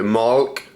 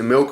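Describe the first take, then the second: First: The vowel is an open 'ah' sound. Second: The vowel is a short 'ih' sound. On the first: This is how some other people say it. "some people call it malk" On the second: This is the speaker's own way of saying it. "I pronounce it milk"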